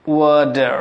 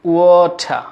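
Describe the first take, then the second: First: Water as "waw-derr"; d for t in water, sounded r; American pronunciation. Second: Water very slow, as "waw-tha"; British pronunciation. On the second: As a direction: aspirate the t in water, drop the r. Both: Shown as a demonstration.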